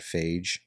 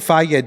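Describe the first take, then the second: First: The name is said the way people misread it. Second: The name is said the way the brand intends. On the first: The speaker calls it wrong. "people don't know how to pronounce. They call it phage" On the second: The speaker calls it right. "They literally have the pronunciation on the side"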